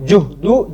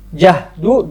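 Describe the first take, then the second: First: The first vowel is a rounded u sound. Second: The first vowel is an open a sound. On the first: "dengan dhamma" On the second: "Dengan fathah"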